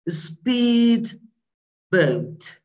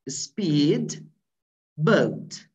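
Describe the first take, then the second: First: The d of speed is clearly pronounced. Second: The same.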